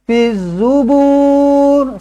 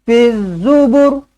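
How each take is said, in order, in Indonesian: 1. Vokal akhirnya dibaca panjang. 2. Vokal akhirnya dibaca pendek. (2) "Pendek je"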